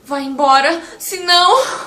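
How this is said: It is said in a frightened, alarmed voice. Something dangerous is coming. "você estando assustado, numa uma situação assim de espanto, de medo"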